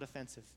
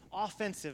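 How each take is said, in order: First: The stress is on the second syllable. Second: The stress is on the first syllable. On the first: The people cause offence to others. The speaker calls it wrong. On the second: The people go on the attack. The speaker calls it right.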